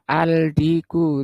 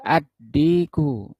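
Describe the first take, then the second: First: The article is said with a clear l sound. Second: The l merges into a doubled d sound. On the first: The speaker calls it wrong. "nggak boleh dibaca al-diku" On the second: The speaker calls it right. "tapi ad-diku"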